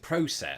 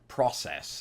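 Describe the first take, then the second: First: It is said with the British pronunciation. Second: It is said with the American pronunciation. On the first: "predominant pronunciation of it uh, back in Britain" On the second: "the predominant pronunciation here of that particular word is process"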